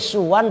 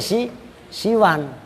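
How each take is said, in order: First: The first vowel is a u sound. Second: The first vowel is an i sound. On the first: "pembandingnya adalah hudan" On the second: "pembandingnya adalah ridon"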